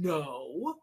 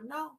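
First: The no sounds harsh and judgmental. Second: The no sounds short, calm and neutral. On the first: The listener is being scolded. The speaker calls it wrong. "We don't need that" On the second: The listener is simply being redirected. The speaker calls it right. "You would give them an instructional no. You go"

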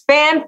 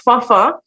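First: The name is said with an English pronunciation. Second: The name is said with its Haitian pronunciation. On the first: "in our English language, it is pronounced fan" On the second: "It's actually of Haitian descent. It's mm-hmm. pronounced Fafa"

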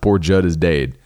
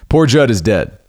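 First: The word dead rhymes with day. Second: The word dead rhymes with bed.

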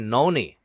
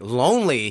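First: The word begins with an N sound. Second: The word begins with a clear L sound. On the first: "he'll say noni" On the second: "instead of saying like lonely"

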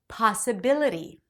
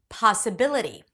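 First: The stressed vowel is an open back ah. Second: The same.

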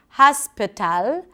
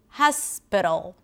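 First: The last syllable has a full A vowel. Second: The last syllable has a reduced schwa vowel. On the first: The speaker calls it wrong. "if you're used to pronouncing it with an A sound" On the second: The speaker calls it right. "what happens if you reduce it?"

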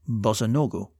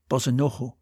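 First: The middle consonant is a hard G. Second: The middle consonant is a soft breathy H. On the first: This is the Russian form. "the Russian" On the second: This is the Ukrainian form. "in Ukrainian"

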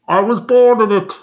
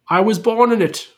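First: It is said muffled, like Bane, behind a hand. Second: It is said in a plain, unmuffled voice.

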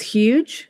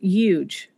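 First: The word starts with an h sound. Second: The word starts without an h sound. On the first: The speaker calls it right. "instead of" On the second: The speaker calls it wrong. "I said something like"

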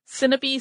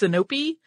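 First: The stress is not on the middle syllable. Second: The stress is on the middle syllable. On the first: "sounds more natural to me" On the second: "put an accent on the middle syllable"

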